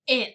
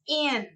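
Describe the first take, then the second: First: The vowel is short and clipped. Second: The vowel is drawn out with an extra sound. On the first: The speaker calls it right. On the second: The speaker calls it wrong.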